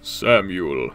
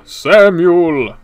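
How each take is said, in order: First: Low drawn-out "Samuel"; drawn-out name. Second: Loud, high "Samuel"; mock calling out. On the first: Pretend. Playfully intoning a viewer's name, low and drawn-out. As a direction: stretch out the name, pitched well down. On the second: Playfully calling a viewer's name, loud and high. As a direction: belt the name out long and playfully. Same name called louder, higher.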